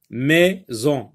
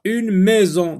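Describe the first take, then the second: First: "Maison" split into two beats, mai, then zon; syllable by syllable. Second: Said in the usual way. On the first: Shown as a demonstration. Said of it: "le sectionner en syllabes".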